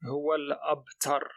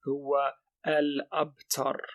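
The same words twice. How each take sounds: First: The vowel is skipped, linking straight to the L. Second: The vowel before the L is pronounced separately. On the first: The speaker calls it right. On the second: The speaker calls it wrong.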